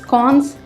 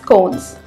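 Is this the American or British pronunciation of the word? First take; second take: British; American. First: The word is said the British way. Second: The word is said the American way. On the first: "In Britain it is known as" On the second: "in U S it is most likely to be called as"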